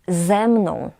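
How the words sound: The stress falls on the first word. The speaker calls it right. "Posłuchajcie, ze mną"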